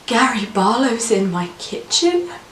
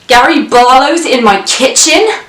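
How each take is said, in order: First: It is said in a disbelieving tone. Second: It is said in an outraged tone. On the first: The speaker cannot believe it is true. "to indicate disbelief" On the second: The speaker is angry about it. "to signify outrage"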